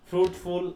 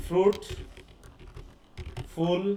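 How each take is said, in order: First: Said in the usual way. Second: "fruit, ফুল" split by a long pause; syllables separated. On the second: Shown as a demonstration. Teacher showing repetition inside one word, "fruit, ফুল" syllables separated. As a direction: say "fruit" and "ফুল" as two isolated pieces. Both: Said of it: "সিলেবলের সাথেও হতে পারে".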